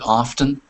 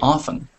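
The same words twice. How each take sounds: First: The T sound is clearly pronounced. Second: The T sound is left out. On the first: "we can hit that hard T sound with often" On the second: "forget about the T sound and just say often instead"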